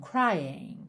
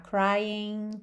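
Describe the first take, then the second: First: It is said with a British ending. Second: It is said with an American ending.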